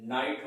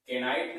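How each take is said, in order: First: नाइट with a silent K; नाइट, no "ke" before the N; right pronunciation. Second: केनाइट with the K sounded as "ke"; mispronounced केनाइट, silent K spoken aloud; wrong pronunciation. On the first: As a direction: say नाइट, starting straight on the N. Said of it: "इसका सही pronunciation". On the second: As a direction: say केनाइट, an extra syllable before the N. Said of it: "केनाइट नहीं होता है". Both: Shown as a demonstration.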